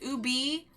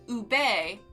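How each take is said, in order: First: The word ends with an 'ee' vowel. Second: The word ends with an 'eh' vowel. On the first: "like you would pronounce it U B B, U B E E" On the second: "like you would spell it U B E H"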